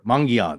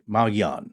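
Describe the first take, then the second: First: The word is said with a slight N sound. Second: The word is said without an N sound.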